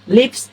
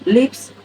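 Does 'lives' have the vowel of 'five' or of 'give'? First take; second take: give; give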